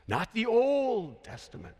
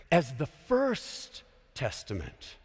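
First: Put-on "Old" stretched long and pitched higher; stress on Old. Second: Slow, low "first", held long; stress on first. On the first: Preacher rejecting the usual name, stressing "Old". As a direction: draw out "Old" as the rejected term. Contrasts old with first testament. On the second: Preacher correcting Old Testament profs, stressing "first". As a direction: lean slowly on "first". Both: Shown as a demonstration.

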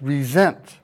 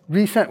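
First: "resent" with a buzzed Z, ree-ZENT; Z sound. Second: "resent" as REE-sent, with an S sound; full ee prefix in "resent", S rather than Z; hyphenated pronunciation. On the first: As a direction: stress the second syllable of "resent", S said as Z. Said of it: "Z sound as resent". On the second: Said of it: "is not pronounced with the same". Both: Shown as a demonstration.

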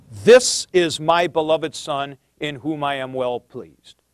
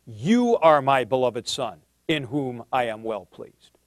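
First: "This" leaned on, opening the quote with a falling line; stress on This. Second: "You" leaned on, a touch lower and softer; stress on You. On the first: Lecturer quoting Matthew's version to his class, stress on "This". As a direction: mark the Matthew wording by pressing on "This". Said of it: "In Matthew". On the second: Lecturer contrasting Mark's version for students, stress on "You". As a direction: set Mark's wording apart by hitting "You". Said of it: "In Mark". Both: Shown as a demonstration.

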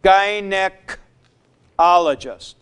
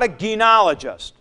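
First: Gynecologist very slow with a hard g, guy-; right gynecologist. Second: Gynecologist quickly with a kee- sound; wrong gynecologist. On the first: Teacher landing the right form, gynecologist slow and deliberate. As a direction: gynecologist stretched out, guy-neh-kologist. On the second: Teacher repeating the wrong pronunciation, gynecologist said quickly. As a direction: gynecologist rattled off as the wrong form. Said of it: "not gyne". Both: Shown as a demonstration.

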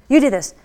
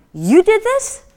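First: Falling, emphatic, impressed; impressed statement. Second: High, loud astonished question; can't believe she made this; amazed disbelief. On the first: Buyer repeating to inventor, emphatic falling statement. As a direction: settle it as an impressed fact. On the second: Buyer stunned that the inventor made it, high astonished question. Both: Retold or imitated.

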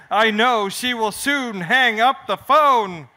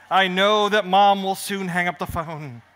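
First: Slow, emphatic second take; insistent repeat. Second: Said in the usual way. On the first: Acted. Kel repeating himself to calm the worried crowd, slow and insistent. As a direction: say it again, slower and firmer. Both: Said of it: "I said".

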